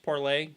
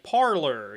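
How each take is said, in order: First: The word ends with an "ay" sound. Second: The word ends with an "er" sound. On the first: This is the intended French-style pronunciation. "it was originally supposed to be pronounced parlay" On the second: This is how most people say it, following the spelling. "They're pronouncing it like parlor"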